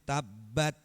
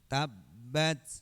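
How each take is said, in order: First: The final t ends without any breathy hiss. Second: The final t ends with an audible breathy hiss. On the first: The speaker calls it wrong. "Tidak boleh tabbat" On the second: The speaker calls it right. "harus ada desisnya ketika mati"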